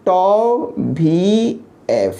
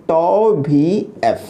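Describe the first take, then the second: First: Very slow, drawn-out tau vee ef; said lovingly. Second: Said in the usual way. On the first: Shown as a demonstration. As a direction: stretch "tau वी एफ़" out fondly, each sound long. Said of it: "प्यार से बोलते हैं". ("tau वी एफ़" प्यार से, बहुत धीरे खींचकर) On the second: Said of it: "प्यार से इसको बोलते हैं".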